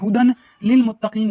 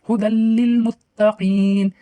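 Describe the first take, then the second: First: An n sound is heard before lil. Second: The d runs straight into a held l. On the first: The speaker calls it wrong. "हुदन लिल मुत्तकीन नहीं पढ़ेंगे" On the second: The speaker calls it right. "हम दाल को लाम से मिलाएंगे और ठहरेंगे भी"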